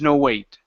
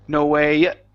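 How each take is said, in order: First: The pitch keeps falling through the final word. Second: The pitch jumps up on the final word. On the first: It is heard as one word. The speaker calls it wrong. "you keep going down, that means to me that it's one word" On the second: It is heard as separate words. The speaker calls it right. "when you say the word it, you have to bring your voice up. It has to jump"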